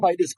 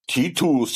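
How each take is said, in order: First: The name is said with English pronunciation. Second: The name is said with Greek pronunciation. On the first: "because it's English" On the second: "if it's Greek"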